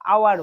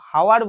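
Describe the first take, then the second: First: The word starts directly with a vowel sound. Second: The word starts with an audible h sound. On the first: The speaker calls it right. "এটা আওয়ার বলে" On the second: The speaker calls it wrong. "হাওয়ার বলি না"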